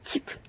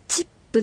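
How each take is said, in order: First: The final p is held with lips closed. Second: The final p is released with a vowel. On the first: The speaker calls it right. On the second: The speaker calls it wrong.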